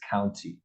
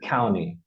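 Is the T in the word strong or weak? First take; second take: strong; weak. First: The T sound is strong and clearly pronounced. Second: The T sound is weak and barely pronounced. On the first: The speaker calls it right. "the proper way to say it is county" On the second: The speaker calls it wrong. "that T is still in there, but it just doesn't have the focus"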